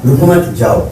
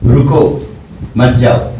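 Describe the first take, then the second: First: "رکو مت" as one phrase, then separate "جاؤ"; pause after مت. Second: "رکو" alone, a stop, then "مت جاؤ"; pause after رکو. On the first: Teacher giving the second meaning, pause after مت. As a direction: join رکو to مت, break before جاؤ. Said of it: "ادائیگی میں دو معنی دے رہا ہے". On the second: Teacher asking students the meaning, pause after رکو. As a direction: break after رکو, keep مت جاؤ together. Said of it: "کیا معنی ہو گیا؟". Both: Shown as a demonstration.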